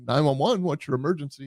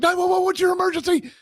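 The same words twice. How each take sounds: First: The voice sounds calm and steady. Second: The voice sounds frantic and out of control. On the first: The speaker calls it right. "somebody with a calm voice" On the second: The speaker calls it wrong. "somebody uh completely out of their mind"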